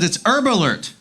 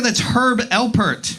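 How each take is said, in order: First: "Herb" with silent h, run into "Alert"; roommate's mispronunciation. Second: "Herb" with sounded h, then a slow, clear "Alpert"; exasperated correction. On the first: Roommate shows off the album, misreading it as "Herb Alert", h dropped. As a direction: say "Herb Alert" like one word, erb-alert. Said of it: "he held up the album and he said". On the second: Comic corrects roommate, slow and distinct "[name]". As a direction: spell out "[name]" slowly, hitting the h and the p. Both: Retold or imitated.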